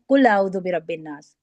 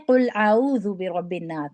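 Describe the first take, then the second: First: قل said with a کاف sound instead of قاف; wrong recitation. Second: قل with a deep قاف from the throat, slower; correct recitation. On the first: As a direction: show the mistake, قل with a light k. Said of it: "جب ہم قوف کی جگہ کاف لگا دیتے ہیں". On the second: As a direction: recite قل properly with a heavy q. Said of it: "قل کا مطلب ہوتا ہے کہو". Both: Shown as a demonstration.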